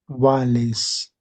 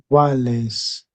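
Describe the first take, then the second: No difference in how they are said.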